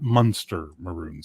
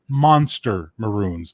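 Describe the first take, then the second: First: The first word sounds like 'munster'. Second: The first word sounds like 'monster'. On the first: The speaker calls it wrong. "not Munster Maroons" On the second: The speaker calls it right. "Monster Maroons, not Munster Maroons"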